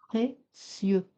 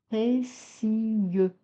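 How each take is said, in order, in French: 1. Le mot se prononce en deux syllabes. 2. Le mot se prononce en trois syllabes. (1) "le mot précieux est prononcé en deux syllabes" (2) "Ne pas dire précieux"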